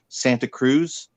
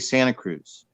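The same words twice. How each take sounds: First: It is said the way outsiders pronounce it. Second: It is said the way locals pronounce it. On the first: The speaker is not from the area. The speaker calls it wrong. "people will say" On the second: The speaker is from the area. The speaker calls it right. "We say"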